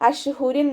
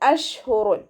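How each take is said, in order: First: The word ends with an -in sound. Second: The word ends with an -un sound. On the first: The speaker calls it wrong. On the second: The speaker calls it right.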